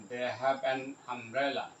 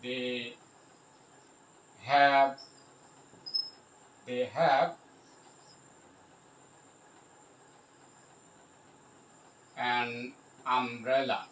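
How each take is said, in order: First: Said in the usual way. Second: Halting dictation with long gaps; word by word. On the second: Shown as a demonstration. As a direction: pause long between the words, as if writing. Spelling out example while writing.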